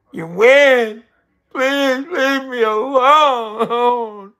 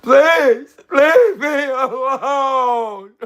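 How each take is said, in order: First: High, loud, slow drawn-out begging; hammed-up whimpering surrender; whiny mock plea. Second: Very high, loud, slow wail with a laugh and a sob; hammed-up sobbing beg; mock crying plea. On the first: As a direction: play the pathetic loser begging to be left alone. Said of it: "I'll be like". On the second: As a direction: redo the plea as a fake crying breakdown. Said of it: "let me do it like this".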